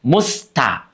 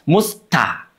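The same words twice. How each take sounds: The two takes are said the same way.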